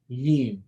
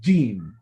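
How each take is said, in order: First: The air is not fully blocked first. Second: The air is fully blocked, then released. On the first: The speaker calls it wrong. "If you leave an area on top, it will be more like a gene" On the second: The speaker calls it right. "Before you say the gene, the air actually fills up"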